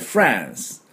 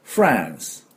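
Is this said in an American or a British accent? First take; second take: American; American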